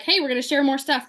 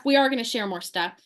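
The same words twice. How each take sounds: First: A lightly voiced nervous listener; mock nervous. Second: "are" pressed firm, lower and softer; stress on ARE. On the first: Mimicking nervous team members on the Zoom, light mock worry. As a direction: tease the nervous ones by quoting them. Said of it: "you're like". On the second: Shown as a demonstration. Reassuring nervous members, firm stress on "are". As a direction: answer back, landing hard on "are".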